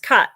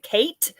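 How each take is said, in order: First: The vowel is an open 'ah' sound. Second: The vowel is an 'ay' sound. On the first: The speaker calls it right. "That sounds that's more sounds more like what you're what you're saying" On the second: The speaker calls it wrong. "I was being very American and was like"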